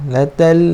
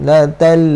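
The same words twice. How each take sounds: The two takes are said the same way.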